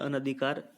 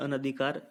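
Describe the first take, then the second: First: The second syllable has a short 'a' vowel. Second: The same.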